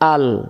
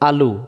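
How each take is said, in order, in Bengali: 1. শব্দটি একটি স্বরহীন ব্যঞ্জনধ্বনি দিয়ে শেষ হয়। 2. শব্দটি একটি হ্রস্ব স্বরধ্বনি দিয়ে শেষ হয়। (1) "দম ফেলা জায়গা থাকার কারণে এখন আলু আর হবে না" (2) "লামপেশ লো, আলু"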